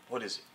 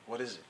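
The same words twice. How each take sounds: The two takes are said the same way.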